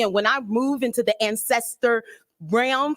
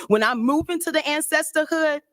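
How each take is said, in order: First: Said in the usual way. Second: Higher emphatic restatement; raised repeat. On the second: Shown as a demonstration.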